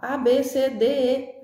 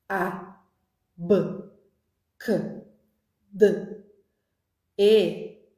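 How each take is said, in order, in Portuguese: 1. Cada letra é dita pelo seu nome completo. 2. Cada letra é dita pelo seu som puro. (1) "a criança não vai aprender o som" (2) "Os sons"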